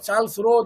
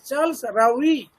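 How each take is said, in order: First: The surname is one syllable, like 'Roe'. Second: The surname is two syllables, like 'Rawee'. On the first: The speaker calls it wrong. "Somebody will pronounce Roe" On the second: The speaker calls it right. "you'll have to follow the Americans, the way they pronounce"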